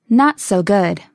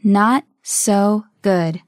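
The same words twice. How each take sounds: First: Said in the usual way. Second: Very slow, spaced words; slow model. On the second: Shown as a demonstration. Teacher modelling a phrase for learners, very slowly. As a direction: leave gaps between the words.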